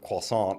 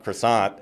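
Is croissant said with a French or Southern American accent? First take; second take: French; Southern American. First: It is said with a French accent. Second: It is said with a Southern American accent. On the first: The speaker now pronounces it this way. "with a French accent" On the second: The speaker used to pronounce it this way. "South Carolina croissant"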